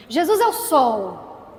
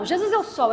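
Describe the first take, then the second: First: "Jesus é o sol" slow and loud, stress on "é"; slow, emphatic declaration. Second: "Jesus é o sol" quicker and higher, light stress on "é"; higher repeated affirmation. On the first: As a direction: lean hard on "é" in "Jesus é o sol". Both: Shown as a demonstration. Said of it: "Sim ou não?".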